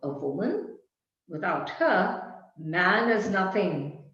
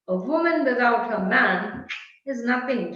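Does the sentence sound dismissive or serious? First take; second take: serious; dismissive. First: It is said in a weighty, serious tone. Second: It is said in a light, dismissive tone. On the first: "But then there's another tone"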